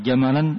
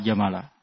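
First: The word ends with the sound -an. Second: The word ends with the sound -a. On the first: The speaker calls it wrong. "ini salah. Tidak benar" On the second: The speaker calls it right. "Hanya bisa dua"

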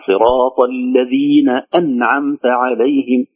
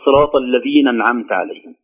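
First: The glottal stop before 'an'amta' is clearly pronounced. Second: The glottal stop before 'an'amta' is dropped. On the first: The speaker calls it right. "همزة قطع ... هكذا" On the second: The speaker calls it wrong. "بعضهم يقول"

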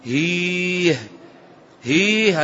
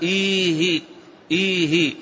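First: Each word begins with an h sound. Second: Each word begins with a glottal stop. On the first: "أبدلت الهمزة هاء" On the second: "الأصل فيها"

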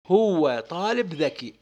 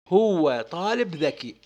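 First: It is said with an Iraqi Arabic accent. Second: It is said with an Iraqi Arabic accent.

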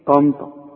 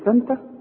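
First: The t sounds are emphatic. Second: The t sounds are plain. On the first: The speaker calls it right. "بتقولها في كلامك الدارج تقول ايه طنطا" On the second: The speaker calls it wrong. "تقول لي تنتا مش ممكن"

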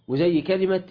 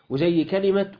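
Both takes have the same delivery.

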